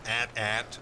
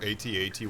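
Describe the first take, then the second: First: It is pronounced as two spoken words. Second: It is spelled out letter by letter.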